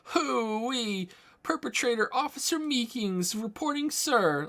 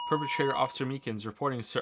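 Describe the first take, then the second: First: It is said in a put-on Meeseeks voice. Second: It is said in the speaker's normal voice.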